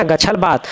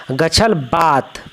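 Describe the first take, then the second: First: Said in the usual way. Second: Slow model reading. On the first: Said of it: "गछल बात, repeated at normal pace". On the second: Shown as a demonstration. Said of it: "गछल बात, slow model reading".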